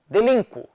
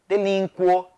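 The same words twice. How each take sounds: First: The stress falls on the vowel i. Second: The stress falls on the vowel u. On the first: The speaker calls it right. "pronunciados com A ou I tônicos" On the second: The speaker calls it wrong. "pronunciadas com U tônico"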